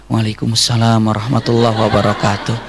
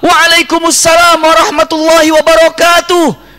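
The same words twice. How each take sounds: First: It is spoken quietly, in a soft voice. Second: It is spoken loudly, in a full voice. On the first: The answer is meant not to be heard. "Yang di dalam jawab pelan-pelan" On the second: The answer is meant to be heard. "menjawab dengan suara yang keluar"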